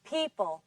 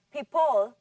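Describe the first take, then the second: First: "People" with clear PEE and reduced ending; stress on first syllable. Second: "people" said wrongly as pee-POLE; stress on second syllable. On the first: Shown as a demonstration. Teacher repeats it after the class, "People" stressed on the first syllable. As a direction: stress the start of "People", falling on a weak ending. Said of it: "On the first syllable".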